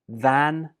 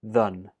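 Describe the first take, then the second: First: The word has a full, clear vowel. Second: The word has a reduced, weak vowel.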